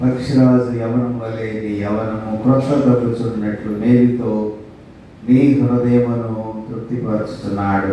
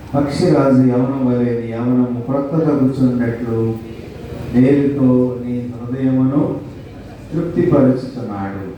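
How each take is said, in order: Both takes have the same delivery.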